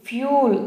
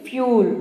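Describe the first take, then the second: Both takes have the same delivery.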